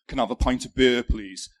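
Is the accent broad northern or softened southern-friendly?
broad northern. It is said in a broad northern accent. This is how he talked before moving south. "instead of saying"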